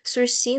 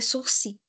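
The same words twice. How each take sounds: First: It is said with an everyday Portuguese pronunciation. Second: It is said with a French pronunciation.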